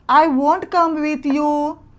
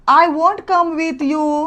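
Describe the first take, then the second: The two takes are said the same way.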